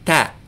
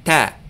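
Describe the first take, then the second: The two takes are said the same way.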